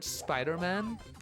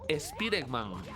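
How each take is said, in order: First: It is pronounced with ordinary English sounds. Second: It is pronounced with Spanish sounds, as spelled.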